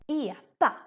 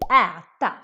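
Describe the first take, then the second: First: The first vowel sounds like E. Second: The first vowel is open. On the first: "very Stockholm Söder accent. He would say" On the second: "instead of saying"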